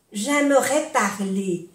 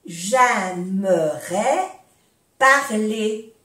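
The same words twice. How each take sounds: First: Said in the usual way. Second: "J'aimerais parler" slowly, split into two parts; slow breakdown. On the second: Shown as a demonstration. Teacher modelling for learners, "J'aimerais parler" slowly in pieces. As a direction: stretch "J'aimerais", pause, then "parler".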